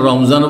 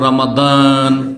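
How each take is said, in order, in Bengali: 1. মাঝের ব্যঞ্জনটি z ধ্বনি। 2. মাঝের ব্যঞ্জনটি d ধ্বনি। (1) "নিজের ভাষায় বললে তখন জ হয়" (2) "আরবি পড়লে তখন দ বানিয়ে দেয়"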